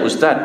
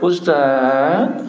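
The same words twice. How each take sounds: First: It is said in a plain, ordinary voice. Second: It is said in a sultry, drawn-out voice.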